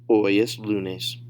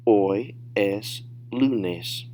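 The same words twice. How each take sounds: First: Connected "Hoy es lunes"; advanced-level demo without long gaps; natural speed. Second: Very slow, words pulled apart; drawn-out teacher demo; slow, careful model. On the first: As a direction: run the answer together at native pace. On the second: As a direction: say "Hoy es lunes" word by word for learners. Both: Shown as a demonstration. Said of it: "say them at natural speed".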